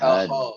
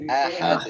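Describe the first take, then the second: First: The sounds are pronounced thick and heavy. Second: All the sounds are pronounced thin and light. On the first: The speaker calls it wrong. "bukan aho" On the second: The speaker calls it right. "dal tipis semua. Enggak ada yang tebel"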